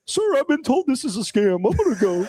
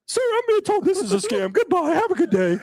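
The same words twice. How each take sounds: First: High, overly polite little voice; prissy high-pitched politeness; polite Cody. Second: Very high, prim voice with a laugh; mock-meek high-pitched goodbye; polite Cody. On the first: Retold or imitated. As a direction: mimic a meek, polite guy hanging up. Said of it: "Cody's, like, real nice". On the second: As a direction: squeak it out politely, barely holding a laugh. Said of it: "I don't think my voice got that high".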